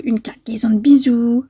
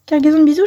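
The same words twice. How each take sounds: First: Breathy whisper of the stamp words. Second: Said in the usual way. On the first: Real, not acted. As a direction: read it under your breath. Reads stamp wording aloud.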